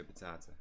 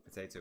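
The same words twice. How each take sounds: First: "potato" with a long AH vowel; po-TAH-to. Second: "Potato" with a long AY vowel; po-TAY-to. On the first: Player testing the odd form, "potato" as puh-TAH-to. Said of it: "Who says potato?". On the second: Player testing the usual form, "Potato" as puh-TAY-to. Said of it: "like, potato, potato". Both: Shown as a demonstration.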